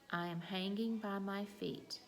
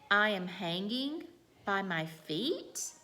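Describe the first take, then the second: First: It is said plainly, ending low and calm. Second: The voice rises at the end, like asking. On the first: The speaker is simply telling a fact. "that was a telling sentence" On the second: The speaker is asking whether it is true. "Now I'm asking"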